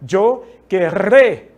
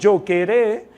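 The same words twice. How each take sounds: First: The r is a strong rolled trill. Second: The r is a single light tap. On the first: The speaker calls it right. "mas eu falo dois R's. Veja" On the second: The speaker calls it wrong. "eu estou falando apenas um R"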